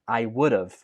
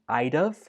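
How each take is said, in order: First: Each of the three words is said separately. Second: The first two words are joined into one. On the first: "or you can say it I would have" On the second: "can be connected to become I'd have"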